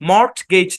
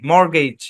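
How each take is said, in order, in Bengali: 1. মাঝের t ধ্বনিটি উচ্চারিত হয়। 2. মাঝের t ধ্বনিটি সাইলেন্ট। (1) "মর্টগেজ না" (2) "টি সাইলেন্ট"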